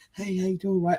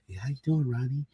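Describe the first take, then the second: First: It is said in a firm, forceful way. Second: It is said in a soft, gentle way.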